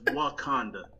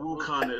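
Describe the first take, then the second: First: The first vowel sounds like 'ah'. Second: The first vowel sounds like 'oo'. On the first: The speaker calls it right. "it's Wakanda" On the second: The speaker calls it wrong. "It's not Wukanda"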